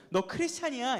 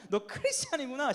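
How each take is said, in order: First: Said in the usual way. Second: Higher-pitched knowing jeer; mocking tone. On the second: Shown as a demonstration. Preacher showing friends the right way to taunt, mocking. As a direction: taunt them with mock discovery. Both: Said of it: "이게 아니라".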